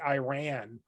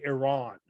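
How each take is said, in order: First: Iran said as "eye-RAN"; "Iran" with long I and short A. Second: Iran said as "ih-RAHN"; "Iran" with short I and open AH; soft-vowel Iran. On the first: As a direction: open Iran with "eye", rhyme the end with "ran". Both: Shown as a demonstration. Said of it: "They say Iran or they say Iran".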